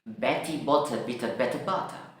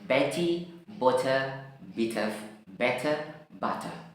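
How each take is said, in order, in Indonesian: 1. Kata-kata itu diucapkan dengan cepat. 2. Kata-kata itu diucapkan sedikit lebih cepat. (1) "I'll try to a little bit faster, lebih cepat lagi" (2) "faster, agak lebih cepat lagi"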